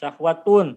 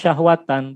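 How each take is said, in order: First: The word ends with the sound -un. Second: The word ends with the sound -an. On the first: The speaker calls it wrong. "bukan syahwatun" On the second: The speaker calls it right. "Maka dia dibaca syahwatan"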